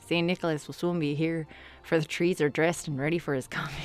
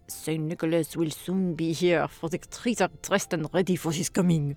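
First: It is said in a Canadian accent. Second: It is said in a French accent.

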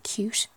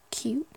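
First: The t is said in an Irish way. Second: The t is said in a plain way.

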